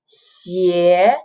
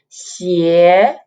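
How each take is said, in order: Both takes have the same delivery.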